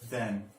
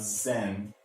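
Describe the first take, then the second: First: It begins with a soft th sound. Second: It begins with a buzzing z sound. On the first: The speaker calls it right. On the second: The speaker calls it wrong. "not zen"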